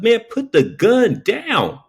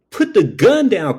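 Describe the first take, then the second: First: High, slow, deliberate order; firm slow command. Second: High, rushed frightened plea; panicked plea. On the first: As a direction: spell it out slowly and firmly. Firm repeated demand to robber. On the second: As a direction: beg him to drop it in a panic. Pleading with robber at gunpoint. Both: Retold or imitated.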